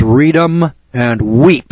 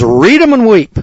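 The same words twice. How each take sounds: First: Each word stretched long and slow; drawn-out card-room saying. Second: The card dealer calling it out high and loud; loud, high dealer announcement; dealer's call. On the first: Shown as a demonstration. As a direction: lay it out slowly, word by word. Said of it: "That's what they tell you in the card room". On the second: Retold or imitated. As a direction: announce it like a dealer slapping down the cards. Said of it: "he says".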